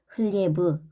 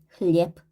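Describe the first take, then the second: First: The word ends in a voiced, drawn-out 'b' sound. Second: The word ends in a short, voiceless 'p' sound. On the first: The speaker calls it wrong. "단어 끝에 유성음이 오면 흘리에브, 흘리에브 이렇게 끌게 되는데" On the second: The speaker calls it right. "짝꿍인 무성음이 어, 빼이기 때문에 흘리에프"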